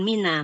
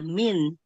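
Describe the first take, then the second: First: The word ends with an added 'a' vowel. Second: The word ends on the consonant 'n'. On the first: The speaker calls it wrong. "bukan mina" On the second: The speaker calls it right.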